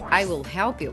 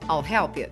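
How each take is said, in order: First: I and will are said as two full words. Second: I and will merge into one short syllable. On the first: "Aplicando a contração na frase I will help you" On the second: "fica I'll help you. Para soar mais natural"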